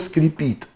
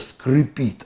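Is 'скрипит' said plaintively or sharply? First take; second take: sharply; plaintively. First: It is said sharply, like a squeak on glass. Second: It is said plaintively, like a crying sound. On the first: It is the plain squeak of something scraping. "Стекло скрипит" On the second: Something is groaning in fear of breaking. "а мачта скрипит. Она плачет"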